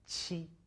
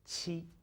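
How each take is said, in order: Both takes have the same delivery.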